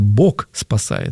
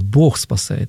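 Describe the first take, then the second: First: The word ends in a hard k-like sound. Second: The word ends in a soft h-like sound. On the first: The speaker calls it wrong. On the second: The speaker calls it right.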